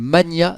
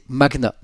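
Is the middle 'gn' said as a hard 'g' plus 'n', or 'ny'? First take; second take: ny; hard g. First: The 'gn' is said as a 'ny' sound. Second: The 'gn' is said as a hard 'g' plus 'n'. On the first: The speaker calls it wrong. "Je disais le mania de l'immobilier" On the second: The speaker calls it right. "La bonne prononciation, ... C'est magna"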